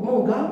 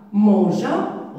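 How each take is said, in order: First: "manga" with a hard G before the A; misread without E. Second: Said in the usual way. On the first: Shown as a demonstration. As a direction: say "manga", G as in gare, no ZH sound. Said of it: "Et ça, c'est faux". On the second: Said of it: "Et ça se prononce".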